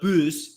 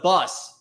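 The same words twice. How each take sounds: First: The word is said with a French accent. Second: The word is said with an American accent. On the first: The speaker calls it wrong. "it's not the bus" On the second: The speaker calls it right. "it's the bus"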